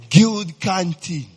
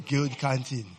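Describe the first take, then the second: First: "Guild canteen" stretched slow and louder; drawn-out nostalgic call. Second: Said in the usual way. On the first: Real, not acted. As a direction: savour "Guild canteen" like a fond memory. Fond nostalgic exclamation.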